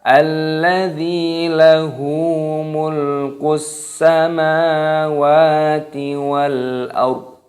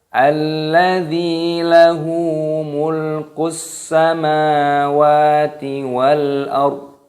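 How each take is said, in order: The two takes are said the same way.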